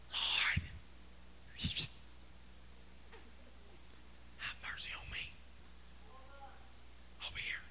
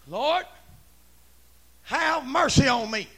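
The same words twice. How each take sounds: First: Barely audible, halting whisper; timid whisper. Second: Full-voiced, drawn-out plea; bold holler. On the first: Acted. Lepers too timid to holler at Jesus, timid whisper. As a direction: whisper it as if afraid to be heard. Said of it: "I don't believe that those guys said". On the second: Leper calling to Jesus for mercy, bold holler. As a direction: holler it out slowly and clearly. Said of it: "I'm saying".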